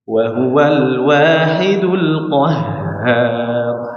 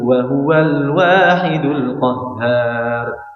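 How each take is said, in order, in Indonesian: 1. Bunyi h berhembus, dengan napas yang mengalir keluar. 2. Bunyi h singkat, dengan sedikit hembusan napas. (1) "Kita harus jelaskan ya" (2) "enggak sekedar"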